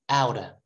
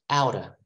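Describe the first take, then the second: Both takes have the same delivery.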